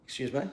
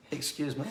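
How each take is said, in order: First: Said in the usual way. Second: Softer, laughing "Excuse me?". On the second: Real, not acted. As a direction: laugh it out more quietly.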